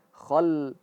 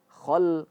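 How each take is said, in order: No difference in how they are said.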